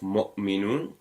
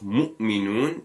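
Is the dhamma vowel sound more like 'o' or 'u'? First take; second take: o; u. First: The dhamma vowel sounds like a rounder 'o'. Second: The dhamma vowel is a sharp, high 'u'. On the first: The speaker calls it wrong. "instead of o" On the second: The speaker calls it right. "sharp upward pronunciation of u"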